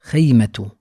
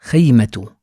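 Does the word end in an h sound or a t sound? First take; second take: t sound; t sound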